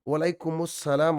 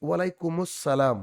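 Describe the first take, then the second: No difference in how they are said.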